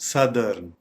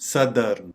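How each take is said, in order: The two takes are said the same way.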